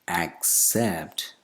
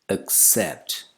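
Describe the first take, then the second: First: The first vowel is a full vowel. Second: The first vowel is a schwa. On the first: The speaker calls it wrong. "commonly mispronounced as accept" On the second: The speaker calls it right. "The initial vowel sound is not a, it's a, schwa"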